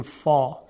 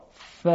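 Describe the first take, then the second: First: فا with a dark, backed "aw" vowel; thickened فا, vowel pulled back; heavy fa. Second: ف with a light fronted long a; long ف, vowel kept forward; thin fa. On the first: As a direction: say فا full, like "fɔ". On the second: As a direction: say ف as a thin "fæː". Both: Shown as a demonstration.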